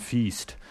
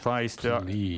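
First: The name is pronounced like the word 'feast'. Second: The name is pronounced the German way. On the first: "Rather than feast" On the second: "So you can actually pronounce it the German way"

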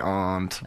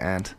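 First: The vowel is broad, as in 'father'. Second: The vowel is flat, like the insect 'ant'. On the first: It is the fancier, less common form. "We are very pretentious people say aunt" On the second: It is the usual everyday form. "Usually we say aunt. ... like the little aunt. Bug"

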